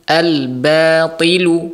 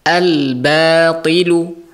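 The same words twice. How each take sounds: First: The 'b' sound is thin and light. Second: The same.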